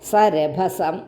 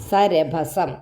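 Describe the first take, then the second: Both takes have the same delivery.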